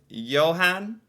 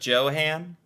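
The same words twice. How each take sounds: First: The name is said with the Norwegian pronunciation. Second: The name is said with the usual American pronunciation. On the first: The speaker calls it right. "Like Johan instead of" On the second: The speaker calls it wrong. "instead of Johan"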